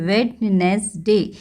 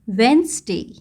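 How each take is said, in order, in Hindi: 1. लिखा हुआ हर अक्षर बोला जाता है, यानी तीन अक्षर। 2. बीच का अक्षर छोड़ दिया जाता है, यानी दो अक्षर। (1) "इस वर्ड को बहुत सारे बच्चे वेडनेसडे बोलते हैं" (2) "that is the correct pronunciation"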